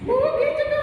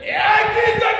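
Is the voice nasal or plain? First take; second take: nasal; plain. First: It is said in a nasal, womanly voice. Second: It is said in a plain, harsh voice.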